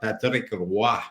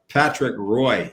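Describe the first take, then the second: First: The name is pronounced the French way. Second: The name is pronounced the English way.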